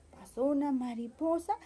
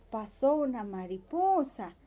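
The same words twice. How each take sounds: The two takes are said the same way.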